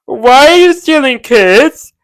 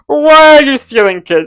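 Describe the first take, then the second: First: Loud, higher and slow outrage; outraged. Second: Loud, higher, in a changed voice; outraged shriek. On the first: Vlogger scolds Vecna for stealing kids, loud and slow. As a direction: shout it out slowly, scandalised. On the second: Vlogger scolds Vecna again, loud mock shriek. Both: Retold or imitated.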